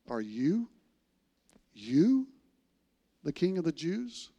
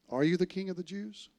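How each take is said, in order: First: It is asked in disbelief, stressing you. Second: It is asked as a plain, neutral question.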